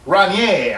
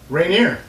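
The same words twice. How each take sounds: First: It is pronounced the French way. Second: It is pronounced the ordinary American English way. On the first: "would be the proper pronunciation" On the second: "I don't think anybody calls it that"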